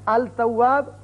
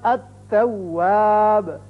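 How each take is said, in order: First: The L is clearly pronounced before the T. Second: The L merges into a doubled T sound. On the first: The speaker calls it wrong. "गलत है" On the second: The speaker calls it right. "ता की मिसाल"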